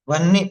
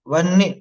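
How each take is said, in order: Both takes have the same delivery.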